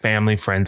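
It is said in a natural voice. "can you say that in your own voice"

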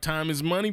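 It is said in a put-on character voice.

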